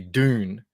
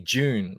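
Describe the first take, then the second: First: The word begins with a clear D sound. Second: The word begins with a J sound. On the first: "You guys would say Dune" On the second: "We say June like it's with a J"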